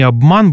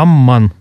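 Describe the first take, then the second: First: A clear b is heard before the m. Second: A long m replaces the b and m. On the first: This is the standard pronunciation. "не «обман» будет" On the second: This is the northern dialect pronunciation. "произносится долгий «м» на вместе сочетание «бм»"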